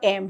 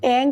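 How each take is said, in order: First: The word ends in a closed m sound. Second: The word ends in a nasal ng sound. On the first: This form is used by householders. "एम जो होता है वो होता है गृहस्थ जीवन के लिए" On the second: This form is used by renunciants. "दो प्रोनाउंसिएशन है इसके"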